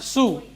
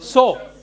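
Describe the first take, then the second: First: The vowel sounds like the word 'sue'. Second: The vowel sounds like the word 'so'. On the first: The speaker calls it wrong. "It is not sew or sewing" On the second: The speaker calls it right. "Pronunciation is pronunciation is sow"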